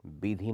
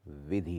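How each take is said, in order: First: विधि begun with a b, as "bidhi"; wrong b sound. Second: विधि begun with a clear v, "vidhi"; correct v sound. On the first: Teacher showing students the spelling error, विधि mispronounced with b. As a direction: say विधि with b in place of v. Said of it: "नहीं होती". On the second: Teacher giving students the right form, विधि with a clear v. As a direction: say विधि with v, not b. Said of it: "होती है". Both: Shown as a demonstration.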